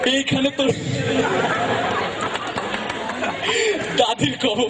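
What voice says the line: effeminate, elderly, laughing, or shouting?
laughing. It is said through laughter. "হাসি খুশি মানুষ, হাসে বেশি"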